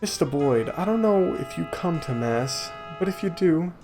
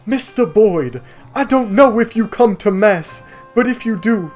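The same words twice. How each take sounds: First: It is read in an ordinary speaking voice. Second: It is read in a put-on preacher voice.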